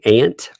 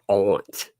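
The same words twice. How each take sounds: First: The vowel sounds like the one in 'ant'. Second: The vowel is a broad 'ah' sound. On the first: "Do you say like A N T" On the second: "where you pronounce it all"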